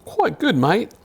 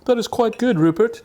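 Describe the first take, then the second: First: Put-on high, jokey Australian accent; hammed-up Australian accent; accidental Australian. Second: Put-on high, plummy English gentleman accent; mock upper-class English accent; posh gentleman. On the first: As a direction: slip into a mock Australian accent. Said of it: "I did turn into an Australian". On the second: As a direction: play a pompous English gent. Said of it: "I meant to be a gentleman".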